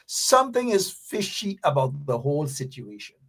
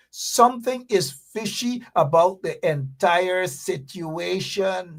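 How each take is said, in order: First: Said in the usual way. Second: Slow, deliberate repeat, leaning on "something". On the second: Shown as a demonstration. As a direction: spell it out slowly the second time. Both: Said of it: "I repeat".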